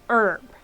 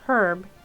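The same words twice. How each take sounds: First: The word starts with no h sound. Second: The word starts with a clear h sound. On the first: This is how American speakers say it. "but Americans say herb" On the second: This is how British speakers say it. "it's the Brits who play who say herb"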